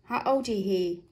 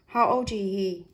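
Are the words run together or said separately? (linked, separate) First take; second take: linked; linked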